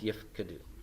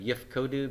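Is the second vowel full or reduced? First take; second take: reduced; full. First: The second vowel is a reduced shva. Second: The second vowel is a full o. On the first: The speaker calls it right. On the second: The speaker calls it wrong.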